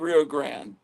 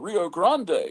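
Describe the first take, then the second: First: It is said with the local Texan pronunciation. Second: It is said with the original pronunciation. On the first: This is how locals in Texas say the name. "we're in Texas, we call it the Rio Grande" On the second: This is how the name is really pronounced. "it's really the Rio Grande"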